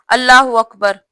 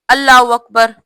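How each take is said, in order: Both takes have the same delivery.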